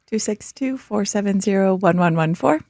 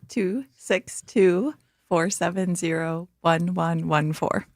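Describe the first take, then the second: First: The number is read at a quicker pace. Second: The number is read at a slower pace.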